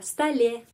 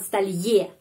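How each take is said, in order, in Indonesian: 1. Suku kata terakhir diucapkan dengan 'e' biasa. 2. Suku kata terakhir diucapkan dengan bunyi 'ye'. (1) "pengucapannya E aja" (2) "bukan столье"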